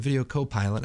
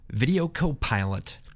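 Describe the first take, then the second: First: It is said in a plain, ordinary speaking voice. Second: It is said in a deep, dramatic trailer voice. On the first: "I can't just say Video Copilot" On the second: "I always have to say it like that"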